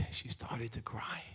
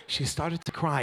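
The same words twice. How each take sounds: First: Slow, soft, hushed telling of her tears; mock tearful. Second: Said in the usual way. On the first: Wife cuts the cake, hushed mock-sad narration. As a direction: drop to a near-whisper as if moved. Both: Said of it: "No, no, I'm just kidding".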